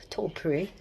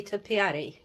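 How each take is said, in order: First: "topiary" said as TOP-ree, the middle vowel dropped; Scottish-style topiary. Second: "topiary" said in full as toe-pee-AR-ee; standard topiary. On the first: Retold or imitated. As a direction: say "topiary" short with a rolled r, in two beats. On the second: Shown as a demonstration. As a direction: say "topiary" with four clear syllables. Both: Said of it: "We say topiary".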